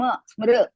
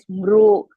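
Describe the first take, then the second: First: The vowel after sm sounds like ri. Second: The vowel after sm sounds like ru. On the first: The speaker calls it right. "Smriti sm smr smriti" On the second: The speaker calls it wrong. "don't say smru like that"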